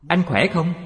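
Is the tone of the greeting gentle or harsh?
gentle. The greeting sounds soft, warm and gentle. The listener feels pleased and welcomed. The speaker calls it right. "Anh ta nghe rất hoan hỷ"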